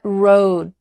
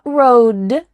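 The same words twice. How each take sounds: First: The final D is held with no air released. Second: The final D is fully released with air. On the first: The speaker calls it right. "but road. Your tongue is there in place, about to make the D sound, but there's no vibration and air that comes out" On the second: The speaker calls it wrong. "Not road"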